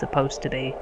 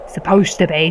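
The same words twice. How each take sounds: First: It is said in the speaker's normal accent. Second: It is said in an exaggerated put-on accent.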